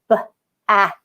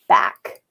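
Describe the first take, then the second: First: The word is said slowly, split into sounds. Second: The word is said quickly as one blended unit. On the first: "I say it slowly, I say it turtle talk" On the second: "you say it fast"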